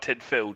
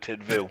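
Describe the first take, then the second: First: The middle consonant is an F sound. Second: The middle consonant is a V sound. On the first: The speaker calls it wrong. "so it's not Tidfill" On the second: The speaker calls it right. "the F's a V"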